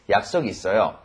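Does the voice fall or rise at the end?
fall. The pitch does not rise at the end. It states that the speaker has plans. "don't raise the intonation at the end of the sentence, then it becomes an answer"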